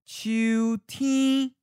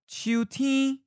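First: It is said slowly and carefully. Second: It is said at a natural speed. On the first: "and then slowly" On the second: "First natural speed"

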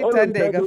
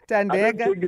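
First: The name is pronounced in its female form. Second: The name is pronounced in its male form. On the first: The person named is a woman. "Thandeka for girl" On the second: The person named is a man. "Thandeka for guy"

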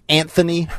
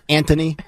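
First: The middle consonant is a 'th' sound. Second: The middle consonant is a plain 't' sound. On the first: The speaker calls it right. "Isn't it supposed to be Anthony" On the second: The speaker calls it wrong. "there's no H in his first name"

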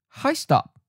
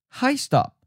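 Both takes have the same delivery.

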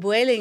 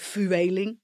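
First: The name is not said the Dutch way. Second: The name is said the Dutch way.

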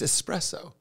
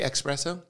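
First: It is said with a plain s, no k. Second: It is said with a k sound, like 'express'. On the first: The speaker calls it right. "It's not the express train to Coffee Town. It's espresso" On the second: The speaker calls it wrong. "There's no X?"

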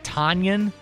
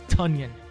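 First: The first syllable does not sound like 'tongue'. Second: The first syllable sounds like 'tongue'. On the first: The speaker calls it wrong. "not Tonyan" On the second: The speaker calls it right. "It's Tonyan, like tongue"

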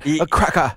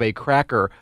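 First: It is said in a British accent. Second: It is said in a plain American accent. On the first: The speaker calls it right. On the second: The speaker calls it wrong.

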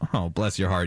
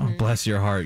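First: It is said in a mocking, condescending tone. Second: It is said in a warm, sincere tone. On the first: The speaker is calling someone foolish. "You're a moron" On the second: The speaker is kindly praising someone. "You're so sweet"

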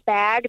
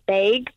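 First: It is said with a standard American vowel. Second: It is said with a Minnesota accent vowel.

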